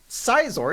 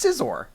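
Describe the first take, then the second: First: The name does not sound like scissors. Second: The name sounds like the word scissors. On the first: "it's not Sizor" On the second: "He sounds like a pair of scissors"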